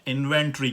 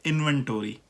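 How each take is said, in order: First: इन्वेंटरी as in-ven-tree; British pronunciation. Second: इन्वेंटरी as in-ven-tor-ee; American pronunciation. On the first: Teacher contrasts it with American, British pronunciation. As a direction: leave out the o in इन्वेंटरी. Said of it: "हम British में". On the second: Teacher explains the full ending, American pronunciation. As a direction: pronounce all of tory in इन्वेंटरी. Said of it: "टोरी करके पूरा पढ़ रहे". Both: Shown as a demonstration.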